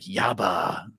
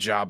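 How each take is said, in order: First: It starts with a Spanish-like Y sound. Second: It starts with an English J sound.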